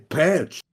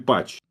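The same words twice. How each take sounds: First: It is said with an American-sounding pronunciation. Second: It is said with a Russian pronunciation. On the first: "I've always tried to sound more English or more like American, so I say patch" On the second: "In Russian, it will be patch"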